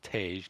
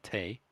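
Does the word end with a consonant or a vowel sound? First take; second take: consonant; vowel. First: The word ends with a consonant sound. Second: The word ends with a vowel sound. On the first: The speaker calls it right. "it's pronounced Tage" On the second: The speaker calls it wrong. "not Tay"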